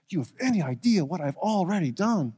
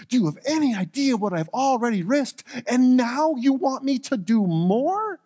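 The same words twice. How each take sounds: First: A worried man starting to protest; stressed plea. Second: Obadiah's protest climbs higher, slowing on "And now you want me to do more?"; a frightened servant pushing back harder; rising stressed plea. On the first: Acted. Obadiah pleads with Elijah, stressed and anxious. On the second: Obadiah protests to Elijah, stressed and rising. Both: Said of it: "You can hear or feel the stress in his voice".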